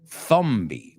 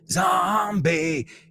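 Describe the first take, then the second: First: The word starts with a soft hissing sound. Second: The word starts with a buzzing z sound. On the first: The speaker calls it wrong. "You say thumbie" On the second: The speaker calls it right. "We say za, za, zombie"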